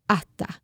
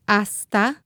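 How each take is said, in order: First: The s is a breathy h sound. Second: The s is a clear hissing s.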